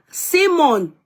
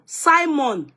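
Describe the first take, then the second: First: "Simon" with first syllable like "see"; SEE-mon pronunciation. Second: "Simon" with first syllable like "sigh"; SY-mon pronunciation. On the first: Host slips into the viewer's way, "Simon" as SEE-mon. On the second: Host corrects back to own way, "Simon" as SY-mon. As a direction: say "Simon" as SY-mon, high and falling. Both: Shown as a demonstration. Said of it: "I don't want to say Simon".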